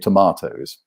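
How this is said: It is said with a British accent. "I would normally say tomatoes"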